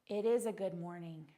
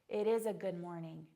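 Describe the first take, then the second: The two takes are said the same way.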